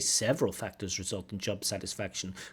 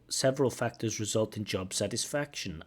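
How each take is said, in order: First: Job satisfaction is said without strong stress. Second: Strong stress falls on job satisfaction. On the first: The phrase is treated as already known from the question. The speaker calls it right. "I would say" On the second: The phrase is treated as new information. The speaker calls it wrong. "she puts the stress on"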